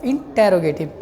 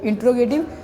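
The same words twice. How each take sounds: First: इंटेरोगेटिव with the ए after ट bent in, in-te-ro-ge-tiv; correct pronunciation. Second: इंट्रोगेटिव squeezed into in-tro-ge-tiv, with a small laugh; mock the wrong इंट्रोगेटिव lightly; wrong pronunciation. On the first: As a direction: model इंटेरोगेटिव carefully, te-ro clearly separate. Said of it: "थोड़ा सा यहाँ टेढ़ा करना पड़ता है". (इंटेरोगेटिव, टे पर थोड़ा टेढ़ा करके सही उच्चारण) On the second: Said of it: "इंट्रोगेटिव नहीं होता है". (इंट्रोगेटिव का गलत उच्चारण, हल्की हँसी के साथ) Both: Shown as a demonstration.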